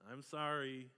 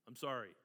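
First: It sounds sincere and heartfelt. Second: It sounds grudging and insincere.

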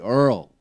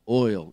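First: The word is said like 'earl'. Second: The word is said as standard 'oil'. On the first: "They say Earl" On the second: "they don't say oil in Kentucky"

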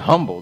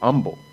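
First: The word starts with an H sound. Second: The word starts without an H sound. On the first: This is how the old church does not say it. "They don't say humble" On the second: This is how the old church says it. "in the old church, they say humble"

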